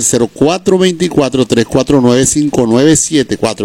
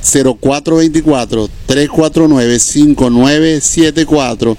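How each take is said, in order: First: The number is said at normal speed. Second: The number is said more slowly.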